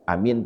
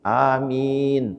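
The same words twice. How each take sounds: First: The first is long, the second short. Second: Both syllables are drawn out long. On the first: It carries a different meaning. "Amin pendek, A panjang, min pendek" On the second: It asks Allah to answer the prayer. "panjang ya, A-nya panjang, mim-nya panjang"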